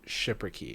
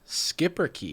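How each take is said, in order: First: The word begins with a soft sh sound. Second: The word begins with a hard sk sound. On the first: The speaker calls it wrong. "I'm pronouncing it wrong" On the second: The speaker calls it right. "Hard hard hard skip"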